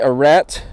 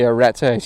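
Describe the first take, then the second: First: The final e is silent. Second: The final e is sounded. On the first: "because we're pronouncing a French word wrongly" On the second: "You pronounce the e"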